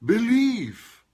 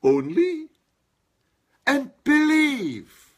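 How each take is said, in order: First: "believe" alone punched high and loud; old reading, stress only "believe". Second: "only" and "believe" both hit high and loud, slowly; new reading, stress both "only" and "believe"; stress on both words. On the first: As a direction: lean all the weight on "believe". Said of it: "I used to think that the emphasis was on". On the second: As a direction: punch "only", then drag out "believe". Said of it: "the emphasis on both words". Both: Shown as a demonstration.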